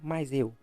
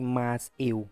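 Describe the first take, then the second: First: The two words run together as one. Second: The two words are said separately and carefully. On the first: "Fica tudo muito junto" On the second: "bonitinho, destacadinho"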